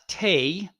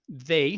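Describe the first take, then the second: First: The name begins with a hard t sound. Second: The name begins with a soft th sound. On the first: The speaker calls it wrong. "not Tay, ... Don't say Tay" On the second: The speaker calls it right. "now you have they"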